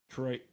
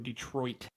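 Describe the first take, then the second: First: The final T sound is dropped or stopped. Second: The final T sound is clearly released. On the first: "We don't really say the T sound" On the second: "We don't go Detroit"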